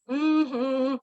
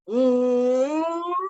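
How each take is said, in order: First: A flat hum in one tone. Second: A full hum resonating through mouth and throat. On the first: The speaker calls it wrong. "a kind of a flat tone hum" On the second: The speaker calls it right. "engaging your full mouth, your full palate, and your your throat"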